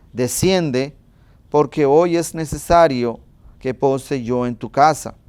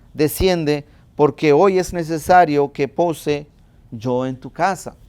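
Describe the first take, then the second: No difference in how they are said.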